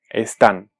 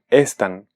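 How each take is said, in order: First: The stress is on the last syllable. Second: The stress is on the first syllable. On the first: The speaker calls it right. "confirmamos que se trata de una palabra aguda" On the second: The speaker calls it wrong. "Si no le ponemos tilde, esta palabra diría"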